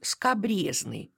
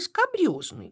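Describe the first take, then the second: First: The stressed vowel sounds like 'ye'. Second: The stressed vowel sounds like 'yo'. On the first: The speaker calls it wrong. "Нередко можно услышать" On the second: The speaker calls it right. "вместо правильного"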